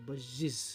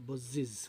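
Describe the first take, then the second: Both takes have the same delivery.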